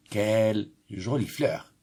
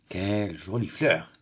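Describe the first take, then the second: First: Admiring. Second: Said in the usual way. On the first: Shown as a demonstration. Teacher showing pupils admiration, admiring. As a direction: linger on the beauty of the flower. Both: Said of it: "ça exprime l'admiration".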